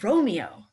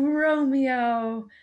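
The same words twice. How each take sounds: First: The name sounds frustrated and resigned. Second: The name sounds warm and adoring. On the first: She laments the bad situation. "the third one is like, man, this situation sucks" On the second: She thinks he is wonderful. "the first one was like, oh gosh, you're so great"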